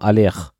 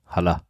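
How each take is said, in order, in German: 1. Der Name wird mit französischem Akzent gesprochen. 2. Der Name wird mit deutschem Akzent gesprochen. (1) "aber mit französischem Akzent" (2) "Ist mir wurscht"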